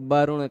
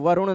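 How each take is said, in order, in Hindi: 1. यह शब्द b ध्वनि से शुरू होता है। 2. यह शब्द v ध्वनि से शुरू होता है। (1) "बहुत सारे लोग व को ब की तरह बोल देते हैं" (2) "नहीं कहेंगे"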